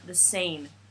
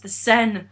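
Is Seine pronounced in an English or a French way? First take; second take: English; French. First: Seine is pronounced with an English-style sound. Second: Seine is pronounced with a French-style sound. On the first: Someone else said it. The speaker calls it wrong. "they kept mispronouncing all the French words" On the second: This is how it should be said. The speaker calls it right. "No, it's the Seine"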